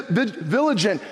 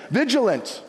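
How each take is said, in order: First: "vigilant" fumbled as VIL-a-jent; stumbled mispronunciation. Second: "vigilant" said properly as VIJ-uh-lunt; corrected pronunciation. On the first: Preacher stumbling over a verse, "vigilant" garbled as VIL-a-jent. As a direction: trip on "vigilant", swapping the l and j sounds. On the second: Preacher fixing his slip in the verse, "vigilant" as VIJ-uh-lunt. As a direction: land "vigilant" with the j before the l. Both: Real, not acted. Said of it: "It's a hard word".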